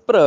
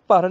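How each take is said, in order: First: ਭ੍ਰ as "pra", r joined straight on; joined consonant cluster. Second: ਭਰ as "par", vowel before the r; separate vowel before r. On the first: Teacher correcting the class, ਭ੍ਰ as joined "pra". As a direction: run the r into ਭ੍ਰ with no vowel before it. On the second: Teacher showing the mistake, ਭਰ as "par". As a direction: keep a full a between ਭ and ਰ in ਭਰ. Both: Shown as a demonstration. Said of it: "ਭਰ ਨਹੀਂ ਭ੍ਰ".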